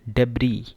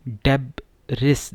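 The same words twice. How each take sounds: First: डेब्री as "DEB-ree" with a silent s; correct pronunciation. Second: डेब्रिस with the final s said out loud; wrong reading. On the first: Teacher giving students the correct form. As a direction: say डेब्री with no s at the end. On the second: Teacher showing the spelling-based mistake. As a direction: read डेब्रिस sounding the s. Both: Shown as a demonstration. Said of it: "सही pronunciation है डेब्री".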